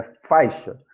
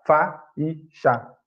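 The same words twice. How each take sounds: First: "faixa" in two syllables, fai-xa; "faixa" slowly, the "ai" kept as one sound; correct joined diphthong. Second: "fa e chá" as three separate beats; "fa e chá" with the vowels pulled apart in hiatus; broken into separate syllables. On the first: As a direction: say "faixa" with a and i glided together. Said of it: "A pronúncia é faixa". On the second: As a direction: split faixa apart, pausing between "fa", "e" and "chá". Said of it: "Porque senão vai ficar". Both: Shown as a demonstration.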